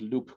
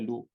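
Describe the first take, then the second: First: The word ends with a pronounced P sound. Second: The word ends without any P sound. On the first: The speaker calls it wrong. "I don't think you officially pronounce it Loup Garou" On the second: The speaker calls it right. "I think you say Loup without the P"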